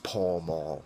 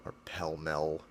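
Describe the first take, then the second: First: The vowels sound like the vowel in 'pal'. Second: The vowels sound like the vowel in 'bell'. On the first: It follows the spelling. The speaker calls it right. "Say it how it's spelled" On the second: It is an old-fashioned way of saying it. The speaker calls it wrong. "if you're ninety years old and still say Pell Mell"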